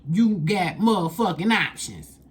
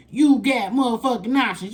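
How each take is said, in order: First: Said in the usual way. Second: Hyped-up emphatic repeat; louder emphatic repeat. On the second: Shown as a demonstration.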